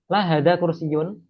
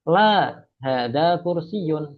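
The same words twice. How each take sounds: First: The words run together without a pause. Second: There is a pause after the first word. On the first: The speaker calls it wrong. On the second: The speaker calls it right. "komanya diperhatikan ya"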